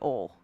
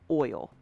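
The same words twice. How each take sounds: First: The vowel is a flattened Tennessee 'oi' sound. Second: The vowel is a careful two-part 'oi' sound. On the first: "because I want to say oil. That that's how I would I would pronounce it" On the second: "I have to think about saying oil"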